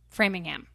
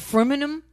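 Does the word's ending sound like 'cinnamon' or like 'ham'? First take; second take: ham; cinnamon. First: The word ends with a clear 'ham' sound. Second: The word ends sounding like 'cinnamon'. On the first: The speaker calls it right. "most would say I'm from Framingham" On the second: The speaker calls it wrong. "Not Framingham, whatever you're saying. So you're saying like cinnamon with frame"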